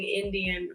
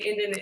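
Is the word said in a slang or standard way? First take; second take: standard; slang. First: The word is said in its full standard form. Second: The word is said in a clipped slang form.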